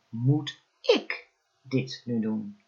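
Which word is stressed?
ik. The stress falls on the word ik. "elke keer de klemtoon op een ander woord gelegd"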